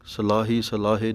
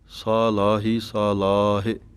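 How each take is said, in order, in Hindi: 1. हर शब्द में पहला स्वर हस्व है। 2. हर शब्द में पहला स्वर दीर्घ है। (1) "ਨਹੀਂ ਕਹਿਣਾ" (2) "ਕੰਨਿਆਂ ਦੀ ਆਵਾਜ਼ ਦੇ ਕੇ ਬੋਲਣਾ ਹੈ"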